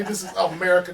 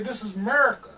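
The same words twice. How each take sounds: First: Said in the usual way. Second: A touch of Southern drawl on "America"; Southern friend's twang on "This is America", lightly done. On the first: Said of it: "They don't even say". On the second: Shown as a demonstration. Friend mimics how Southern people say it, in a light Southern accent. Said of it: "They say".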